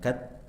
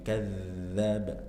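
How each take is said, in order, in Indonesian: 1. Konsonan itu terputus seperti bunyi hambat. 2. Konsonan itu berlanjut dengan aliran udara yang terdengar. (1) "Jangan dibaca mirip dal, jangan dipotong" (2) "masih ada aliran suaranya"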